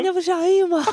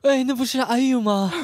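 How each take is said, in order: First: It is said in a put-on feminine voice. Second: It is said in a plain, unfeminine voice.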